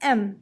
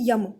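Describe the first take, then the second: First: It begins directly with a vowel sound. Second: It begins with a y-sound before the vowel. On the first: The speaker calls it right. "इसको ऐसे पढ़ते हैं एम, it's एम not यम" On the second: The speaker calls it wrong. "वो गलत pronunciation है"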